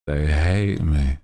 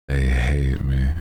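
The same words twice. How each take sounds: The two takes are said the same way.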